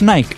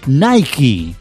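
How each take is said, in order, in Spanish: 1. Se pronuncia con pronunciación española. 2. Se pronuncia con pronunciación inglesa. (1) "No es Nike" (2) "es Nike"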